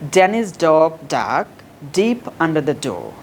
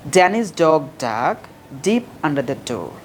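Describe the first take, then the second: Both takes have the same delivery.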